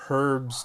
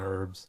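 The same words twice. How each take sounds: First: The H is pronounced, British style. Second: The H is silent, American style.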